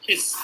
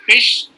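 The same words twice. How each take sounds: First: "fish" said as "fis"; "fish" with a plain s in place of sh; dental s. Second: "fish" ending in a palatal sh; "fish" with a hushing sh at the end. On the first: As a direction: end "fish" on a dental s, as Bihari speakers do. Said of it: "Bihari speaker will say fish". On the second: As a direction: say "fish" with a clear sh sound, as Bengali speakers do. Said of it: "they use the palatal sha". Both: Shown as a demonstration.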